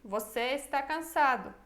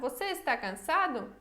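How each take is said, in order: First: It is said with statement intonation. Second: It is said with question intonation. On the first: The speaker is asserting it. "Ou pode ser uma afirmação" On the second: The speaker is asking. "Pode ser uma pergunta"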